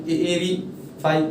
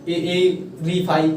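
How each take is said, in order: Both takes have the same delivery.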